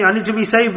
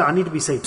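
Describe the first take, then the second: First: Said in the usual way. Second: Quiet, humble repeat of "I need to be saved"; quiet plea. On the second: Shown as a demonstration. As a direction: repeat "I need to be saved" much softer and lower.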